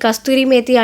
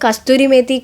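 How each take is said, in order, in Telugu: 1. మొదటి పదంలో 't' శబ్దం ఉంది: kasturi. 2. మొదటి పదంలో 't' శబ్దం ఉంది: kasturi.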